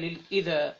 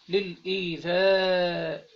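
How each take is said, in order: First: The word is shortened without the final hamza. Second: The word has a long vowel and final hamza. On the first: "بالقصر يعني، ده بيسموه القصر" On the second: "بدل ما هي ممدود"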